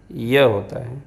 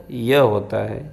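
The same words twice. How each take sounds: The two takes are said the same way.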